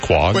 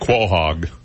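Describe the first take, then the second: First: The name is said in a short, clipped form. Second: The name is said fully, as it is spelled. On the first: The speaker calls it right. "it's actually pronounced Quag" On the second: The speaker calls it wrong. "It looks like Quahog"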